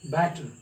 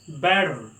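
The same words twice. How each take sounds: First: The middle sound is a crisp t. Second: The middle sound is a quick soft d. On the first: "Indians and British people they pronounce it as better" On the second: "American people sound it as da"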